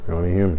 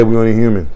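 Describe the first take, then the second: First: "We're only human." dropped much softer and lower; hushed, resigned echo of the line; soft repeat. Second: Said in the usual way. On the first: Real, not acted. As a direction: let "We're only human." fall away quietly, like a sigh. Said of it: "softer repeat after a pause". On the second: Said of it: "repeated for emphasis".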